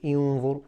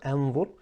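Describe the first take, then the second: First: The word begins with an i vowel. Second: The word begins with an a vowel. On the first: "I did not say inzur" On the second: "I did not say inzur or anzur"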